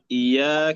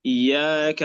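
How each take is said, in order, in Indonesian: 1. Bunyi ya itu pendek dan tunggal. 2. Bunyi ya itu pendek dan tunggal.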